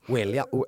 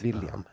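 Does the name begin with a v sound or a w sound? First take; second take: w sound; v sound. First: The name begins with an English w sound. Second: The name begins with a Swedish v sound. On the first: The speaker calls it wrong. "Jag kan fortfarande inte prata" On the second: The speaker calls it right. "Tänk bort att bokstaven W finns"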